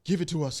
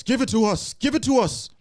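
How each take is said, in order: First: Lightly voiced eerie ghost; a hint of a haunting demand; creepy ghost voice. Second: Louder and higher each time; eerie ghost rising to a wail; ghost voice building. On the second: Acted. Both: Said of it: "creepy ghost whisperer voice".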